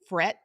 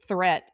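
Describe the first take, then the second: First: The word begins with an f sound. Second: The word begins with a th sound. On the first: "the th sound is an f sound" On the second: "instead of threat"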